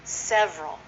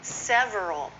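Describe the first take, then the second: First: "several" as SEV-rul; shortened, two syllables. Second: "Several" as sev-er-al; full three syllables. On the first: Teacher modelling the common form, "several" as sev-rul. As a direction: drop the middle vowel of "several". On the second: Teacher showing the long form, "Several" in three syllables. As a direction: keep the middle vowel in "Several". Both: Shown as a demonstration. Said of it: "is often several".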